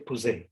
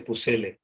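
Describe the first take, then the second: First: The double L is pronounced as a Y sound. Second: The double L is pronounced as an L sound. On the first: The speaker calls it right. "The double L in French becomes je" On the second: The speaker calls it wrong. "you don't say Pucelle"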